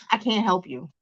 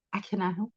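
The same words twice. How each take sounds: First: Said in the usual way. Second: Much softer, teasing; dropped low. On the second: Shown as a demonstration. Telling viewers again, softly, no free promo. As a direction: pull the volume down on it.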